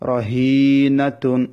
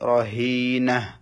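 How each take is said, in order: First: The word ends with a full -tun syllable. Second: The word ends with a soft h sound. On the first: The reading continues past this word. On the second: The reading stops at this word.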